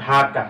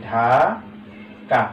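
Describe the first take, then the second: First: Said in the usual way. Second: Very slow Dhaka, long "ঢা", pause, then "কা"; split into syllables. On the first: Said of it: "Dhaka উচ্চারণ করার জন্য". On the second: Shown as a demonstration. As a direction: stretch and separate both syllables of Dhaka. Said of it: "উচ্চারণ করার জন্য কি করছি?". (ঢাকা দুই ভাগে টেনে, থেমে উচ্চারণ)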